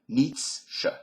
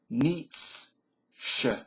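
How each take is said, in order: First: The word is said at normal speed. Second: The word is said slowly. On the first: "and then regular tempo" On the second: "I'm going to say this slowly"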